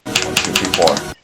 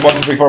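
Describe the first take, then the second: First: The counting is said slowly, controlled. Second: The counting is said quickly.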